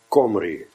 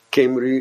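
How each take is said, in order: First: The first vowel sounds like an o. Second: The first vowel sounds like an i. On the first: This is how the local people say it. "En die spreken zij ook uit als een O" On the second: This is how Dutch speakers say it. "En wij spreken zoiets uit als Kimri"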